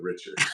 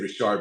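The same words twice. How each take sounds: First: The name is said in a general, non-Louisiana style. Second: The name is said in a Louisiana style. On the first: "but Richard" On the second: "I say Richard because I'm from Louisiana"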